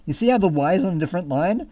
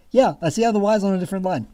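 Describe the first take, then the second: First: Said in the usual way. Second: Fast, mocking echo of his words. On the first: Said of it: "He wrote". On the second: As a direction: rattle it back, fed up. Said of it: "I'm like".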